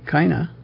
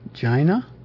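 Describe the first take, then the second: First: The word begins with a hard K sound. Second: The word begins with a soft J-like sound. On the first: "If you just take the C-I-N-A" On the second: "or if we pronounce it as a soft C"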